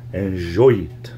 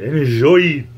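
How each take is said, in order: First: Said in the usual way. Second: Put-on louder crooning French accent. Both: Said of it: "I should do a French accent more often".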